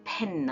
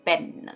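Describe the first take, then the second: First: The p is released with a puff of air. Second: The p is released without a puff of air. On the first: This is how native speakers say it. The speaker calls it right. "ಅವ್ರು ಹೇಳುವಾಗ ಪೆನ್ ಅಂತಾರೆ" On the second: This is how local speakers say it. The speaker calls it wrong. "ನಾವು ಹೇಳುವಾಗ ಪೆನ್ ಅಂತೀವಿ"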